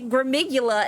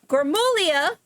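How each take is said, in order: First: The name is said as gra-mi-GOO-la. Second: The name is said as gra-MOO-lya. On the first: The speaker calls it wrong. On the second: The speaker calls it right.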